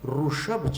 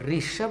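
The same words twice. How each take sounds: First: The first syllable is said as ru. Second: The first syllable is said as ri. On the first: The speaker calls it right. "ऋषभ चाहिए" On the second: The speaker calls it wrong. "वहाँ पर ऋषभ नहीं"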